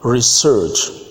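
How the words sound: It is said with an American accent. "Let's move to American English this time round"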